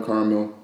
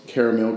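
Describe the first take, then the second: First: "caramel" as KAR-mul; two-syllable pronunciation. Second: "caramel" as KARR-uh-mel; three-syllable pronunciation. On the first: Listing regional variants, "caramel" as KAR-mul. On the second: Listing regional variants, "caramel" as KARR-uh-mel. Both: Shown as a demonstration. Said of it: "People say".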